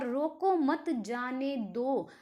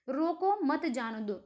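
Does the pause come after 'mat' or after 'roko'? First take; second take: after mat; after roko. First: There is a pause right after 'mat'. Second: There is a pause right after 'roko'. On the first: Do not stop him; let him go. "अगर coma place अगर change होता है तो वहां पर sentence का meaning भी change हो जाता है" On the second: Stop him; do not let him go. "मतलब उसको जाने मत दो, रोक लो"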